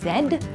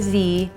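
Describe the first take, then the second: First: The letter is said as zed. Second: The letter is said as zee. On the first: This is the British way. "In British, we say Z" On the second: This is the American way. "or Z if you are American"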